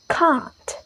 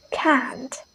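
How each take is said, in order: First: British "Can't" with a long ah; "Can't" with the vowel open and back; British pronunciation. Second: American "can't" with the a of cat; "can't" with a flat American a vowel; American pronunciation. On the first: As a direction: say "Can't" as "cahnt". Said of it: "the British pronounces like". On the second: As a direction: say "can't" with a front "a", never ah. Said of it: "But Americans say". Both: Shown as a demonstration.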